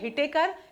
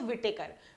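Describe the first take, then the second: First: The name begins with an 'h' sound. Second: The name begins with a 'w' sound. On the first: This is how the name is actually said. "ऐसे बोलते हैं हिटेकर, लेकिन ये डब्ल्यू silent रखते हैं" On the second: This form helps to remember the name. "लेकिन आप ये नाम के लिए याद रख लो"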